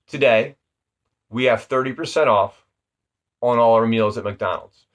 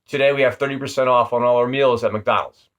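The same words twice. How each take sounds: First: It is said slowly with pauses between parts. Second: It is said quickly and monotone without pauses. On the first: The speaker calls it right. "it breaks the sentence down into three parts" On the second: The speaker calls it wrong. "it's all kind of monotone and just really paced out quick"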